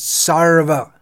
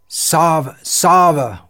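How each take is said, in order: First: The word is said with a clear R sound. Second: The word is said without an R sound. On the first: The speaker calls it right. "It's not Sava, it's Sarva" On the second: The speaker calls it wrong. "Sava, we often say"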